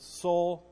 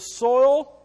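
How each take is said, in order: First: The vowel is a Southern 'oh' sound. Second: The vowel is the standard 'oy' diphthong. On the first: "Nolan Ryan says soul, so I can say soul too" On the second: "I even said it right for you guys"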